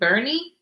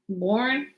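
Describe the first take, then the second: First: The name is said with two syllables, like 'Bernie'. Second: The name is said with one syllable, like 'Born'. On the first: The speaker calls it right. "It's pronounced Bernie" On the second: The speaker calls it wrong. "I don't think it's Born"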